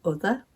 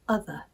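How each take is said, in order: First: "Other" starting with the oo of foot; Northern vowel. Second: "other" starting with open uh; RP vowel. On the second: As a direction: say "other" the RP way, "uh-ther". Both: Shown as a demonstration. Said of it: "There are many other differences as well".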